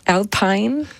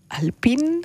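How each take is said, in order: First: The name is pronounced a non-French way. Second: The name is pronounced the French way. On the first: The speaker calls it wrong. "nicht Alpine" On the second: The speaker calls it right. "da es französisch ist, würde ich mal sagen Alpine"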